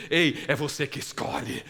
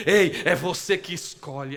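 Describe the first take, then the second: First: Said in the usual way. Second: "Ei, é você que escolhe" said louder and slower, leaning on "Ei"; slow, louder insistence on "você que escolhe"; emphatic repeat. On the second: Shown as a demonstration. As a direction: drive the choice home, slow and loud.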